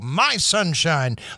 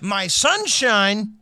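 First: The voice falls at the end. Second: The voice stays level at the end. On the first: The speaker is making a finished statement. "like making the statement?" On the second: The speaker has more to say after this. "Was it mid-sentence? ... because that means something would have followed"

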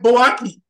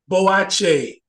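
First: The middle consonant is a hard k sound. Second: The middle consonant is a ch sound. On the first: This is how an outsider reads the spelling. The speaker calls it wrong. "it looks like Boaki" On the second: This is how locals say it. The speaker calls it right. "they pronounce that K as a C-H"

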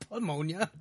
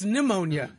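First: The word begins with a p sound. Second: The word begins with an n sound. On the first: The speaker calls it wrong. "It's not pneumonia" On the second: The speaker calls it right. "The P is silent"

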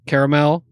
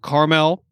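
First: The word is said with three syllables. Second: The word is said with two syllables. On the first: This is the West Coast way of saying it. "as you West Coast people say" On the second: This is the East Coast way of saying it. "We have fewer syllables on the East Coast"

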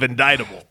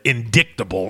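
First: The middle c is silent. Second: The middle c is pronounced as a k sound. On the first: The speaker calls it right. "instead of" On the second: The speaker calls it wrong. "you can't be on the floor of the House and use the word indictable instead of"

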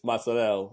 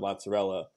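First: The final vowel is dropped. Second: The final vowel is pronounced. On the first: This is the Italian American way of saying it. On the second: This is the standard Italian way of saying it.

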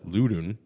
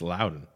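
First: The first syllable does not sound like 'loud'. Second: The first syllable sounds like 'loud'. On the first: The speaker calls it wrong. "I thought it was Loudon" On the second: The speaker calls it right. "but no, it's Loudon. Like that's they want to get loud"

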